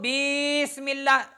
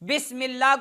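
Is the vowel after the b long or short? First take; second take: long; short. First: The vowel after the b is drawn out long. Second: The vowel after the b is short. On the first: The speaker calls it wrong. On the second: The speaker calls it right.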